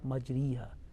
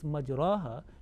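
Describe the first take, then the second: First: The vowel after r is a full i. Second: The vowel after r is an open a. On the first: "not majriha" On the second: "basically the word is majraha"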